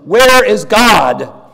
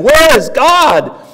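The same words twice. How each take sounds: First: It is said in a stronger, louder tone. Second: It is said in a raised, shouting voice.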